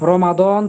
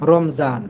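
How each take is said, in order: First: The middle consonant is a heavy d sound. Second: The middle consonant is a z sound. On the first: The speaker calls it right. "দদের উচ্চারণ" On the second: The speaker calls it wrong. "জয়ের মতো বলে"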